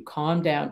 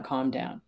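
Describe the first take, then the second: First: Said in the usual way. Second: Calm down repeated, softer and lower; softer second calm down. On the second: Shown as a demonstration. Telling an upset person, softer and lower. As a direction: let the second calm down drop away. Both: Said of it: "I say to you".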